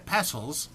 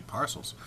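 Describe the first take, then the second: First: "parcels" said softly without the r, like "passels"; mispronounced parcels. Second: "parcels" said quietly with a clear r, "pahr-sels"; corrected parcels. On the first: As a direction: slip into "parcels" with a flat a and no r. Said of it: "well, it should be parcels". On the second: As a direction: fix it to "parcels" with the r sounded. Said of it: "it should be parcels". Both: Shown as a demonstration.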